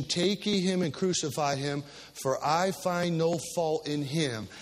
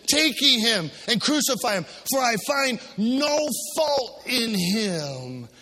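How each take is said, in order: First: Said in the usual way. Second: Pilate's declaration. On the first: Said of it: "He makes a declaration". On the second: Acted. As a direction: stretch the last line into a cry. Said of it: "Pilate saith unto him".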